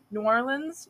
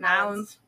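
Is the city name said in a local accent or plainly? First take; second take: plainly; local accent. First: The name is said plainly, with all syllables. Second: The name is squeezed into a local accent.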